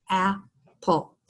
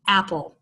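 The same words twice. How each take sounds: First: "Apple" softly split into two separated syllables. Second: Said in the usual way. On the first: Shown as a demonstration. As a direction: pause between the two beats of "Apple". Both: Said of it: "two syllables".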